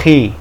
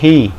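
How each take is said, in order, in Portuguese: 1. Começa com um som aspirado da garganta. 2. Começa com um som aspirado da garganta.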